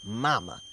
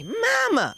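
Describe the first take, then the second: First: "Mama" low with a broad ah; relative's echo. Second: "Mama" high with a flat a as in "cat"; daughter calling out. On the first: Relative quoting the child's word, low deadpan "Mama". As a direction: say "Mama" low and softer, ah in the first syllable. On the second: Daughter about to point out toe, high piercing "Mama". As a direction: pitch "Mama" way up, then let it drop. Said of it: "I already hear her say". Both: Retold or imitated.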